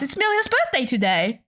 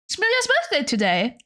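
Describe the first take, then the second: First: Said in the usual way. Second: Bright, high, fast repeat of "It's Melia's birthday today"; singsong birthday announcement. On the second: Shown as a demonstration.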